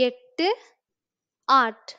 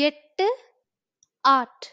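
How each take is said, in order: No difference in how they are said.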